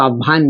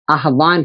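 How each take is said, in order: First: आह्वान said aavaan, h dropped; everyday pronunciation. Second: आह्वान with the h sounded, aah-vaan; correct pronunciation. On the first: Teacher showing students the common spoken form, h dropped. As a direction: say आह्वान as aa-vaan with no h. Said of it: "परंतु हम उसको आह्वान बोल देते हैं". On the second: Teacher showing students how it should be said, with the h clearly sounded. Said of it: "आह्वान होना चाहिए". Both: Shown as a demonstration.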